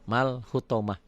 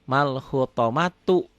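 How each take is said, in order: First: The word ends with a soft h sound. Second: The word ends with a full tu syllable. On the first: This is the form used when stopping at the word. "jika dihentikan bunyinya jadi ha" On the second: This is the full form when reading continues. "Asalnya kan mal hutomatu"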